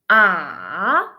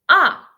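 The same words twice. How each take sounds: First: It is said with the third tone. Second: It is said with the fourth tone. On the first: "The third one" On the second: "And the last one"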